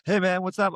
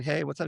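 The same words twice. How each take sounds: First: Much higher, eager hello; excited greeting. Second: Offhand reply. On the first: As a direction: greet him brightly and high. Caller excitedly greets him. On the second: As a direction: answer like you barely care. His own offhand reply. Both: Retold or imitated.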